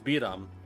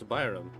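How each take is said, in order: First: The first syllable sounds like 'bee'. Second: The first syllable sounds like 'bye'. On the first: The speaker calls it right. "It's Biram" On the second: The speaker calls it wrong. "you don't pronounce it as Byram"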